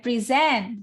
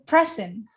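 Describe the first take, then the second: First: The stress is on the last syllable. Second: The stress is on the first syllable. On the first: To give a presentation. "Akhir ya" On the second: A gift. "Awal, good"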